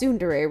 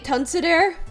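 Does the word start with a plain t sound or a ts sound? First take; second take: ts sound; t sound. First: It starts with a ts sound in three syllables. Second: It starts with t and has an extra syllable. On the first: The speaker calls it right. "you know it's tsundere, right?" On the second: The speaker calls it wrong. "I'd end up calling it Tunsudere"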